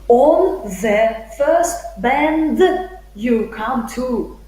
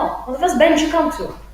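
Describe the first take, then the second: First: Each word is said separately and clearly. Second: 'Bend you' blends together into 'benjyou'. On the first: "The speaker won't say" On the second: "connected speech, everything is connected"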